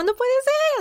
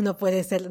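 First: Imitating a very high excited shriek; hammed-up squeal of disbelief; excited scream. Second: Said in the usual way. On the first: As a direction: shriek it in overwhelmed joy. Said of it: "Grita de la emoción". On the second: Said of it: "era así como".

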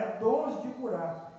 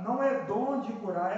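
First: Slow, leaning on "dons" to mark the plural; stress on dons. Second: Said in the usual way. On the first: Shown as a demonstration. Preacher correcting the reading of the verse, stressing dons. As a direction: stretch out "dons" so the plural is clear.

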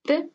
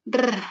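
First: "Re" with a single short tap; quick tapped "Re", no roll; soft Spanish R. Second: "r" as a trill of several vibrations; long rolled "r"; strong Spanish R. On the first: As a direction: flick the tongue once on "Re". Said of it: "lengua vibra solo una vez". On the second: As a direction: roll the "r" on the tongue tip. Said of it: "R fuerte vibra más veces". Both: Shown as a demonstration.

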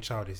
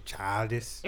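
First: Said in the usual way. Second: Put-on childish with a Liverpool ch, like "tyldish"; Scouse childish. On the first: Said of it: "instead of saying childish". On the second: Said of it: "he says childish".

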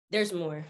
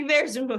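First: Said in the usual way. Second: Laughed out, higher and louder; laughing. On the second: Real, not acted. Teasing the host that the story continues, laughing. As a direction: let the laugh spill into the words.

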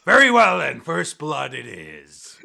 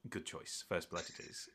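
First: Booming start, long drawn-out finish; captain's announcement. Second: Low, very soft duelist; Fabian's reply. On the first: Captain announcing the duel terms, loud and drawn out. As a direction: proclaim it to the whole crowd. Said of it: "And the captain goes". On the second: Duelist approving his opponent's choice, low and quiet. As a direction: answer low and under your breath. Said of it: "looks at you and goes". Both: Acted.

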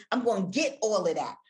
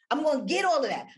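First: Said in the usual way. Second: Higher, louder, punching all; passionate burst. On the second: Shown as a demonstration. S0 showing listeners how passion comes through, higher and louder. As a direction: lift it with passion. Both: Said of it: "If you're passionate about something".

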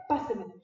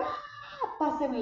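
First: Said in the usual way. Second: Sudden high-pitched ask with a laugh; pleading softly on a very high note. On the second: Retold or imitated. Asking again for the crying baby.

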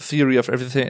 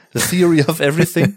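First: Said in the usual way. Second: "The Theory of Everything" in careful English with a clear th; "Theory" said with English th and a rising end; English pronunciation. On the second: Shown as a demonstration. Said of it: "der Horrortitel für alle Deutschen".

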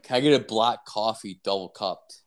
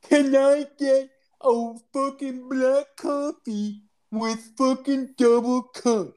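First: Said in the usual way. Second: Very high, slow, laboured mock impairment. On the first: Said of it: "I'm gonna fucking talk like". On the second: Customer re-orders at the drive-thru, mocking impaired speech. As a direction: drag each word out in a high put-on voice. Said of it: "talk like a fucking handicap".

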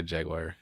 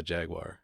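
First: "Jaguar" as JAG-wire; own pronunciation. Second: "Jaguar" as JAG-wahr; car pronunciation. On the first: Siding with a friend, JAG-wire pronunciation. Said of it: "I say Jaguar". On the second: Conceding for the vehicle, JAG-wahr pronunciation. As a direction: end Jaguar on an open "wahr". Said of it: "if I'm talking about the vehicle". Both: Shown as a demonstration.

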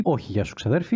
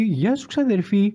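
First: Low, offhand retraction; greeting withdrawn. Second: High, drawn-out hello; mock shout-out. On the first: Pretend. Podcaster to a cousin who isn't listening, low offhand retraction. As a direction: drop low to take the hello back. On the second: Podcaster to a possibly listening cousin, playful high greeting.

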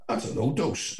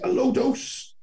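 First: Said in the usual way. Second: Very high-pitched, questioning disbelief; incredulous echo. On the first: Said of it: "And he goes". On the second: Retold or imitated. Echoing the claim in disbelief.

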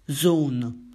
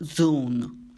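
First: Zone with a clean z, zon; zone said clearly. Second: Zone blurred to dzon with a retainer; zone garbled by retainer. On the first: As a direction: zone corrected to a clear z sound. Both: Real, not acted. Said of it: "con l'apparecchio non si riesce a dire".

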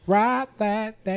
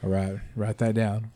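First: Slow, high emphatic repeat; drawn out high. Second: Said in the usual way. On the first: Real, not acted. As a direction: stretch Write that down high and slow.

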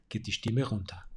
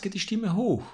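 First: "geht die Stimme runter" dropped lower and softer, as at a full stop; voice going down. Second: "geht die Stimme hoch" lifted higher, as at a comma; voice going up. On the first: Speaking coach showing the voice falling at a full stop. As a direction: let the pitch fall away on "runter". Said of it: "den Satz mit einem Punkt beendest". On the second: Speaking coach showing the voice rising at a comma. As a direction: raise the pitch on "hoch" like mid-sentence. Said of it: "Wenn es einen Beistrich gibt". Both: Shown as a demonstration.

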